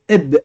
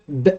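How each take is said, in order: First: A short a-vowel comes before the b. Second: The b is said alone with no vowel. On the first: "on mettait un elif devant avec un fatha et ça faisait eb" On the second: "sans le alif et le, le fatha, ça ferait b"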